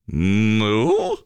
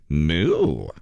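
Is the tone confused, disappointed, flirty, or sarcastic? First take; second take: confused; flirty. First: It sounds confused. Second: It sounds flirty.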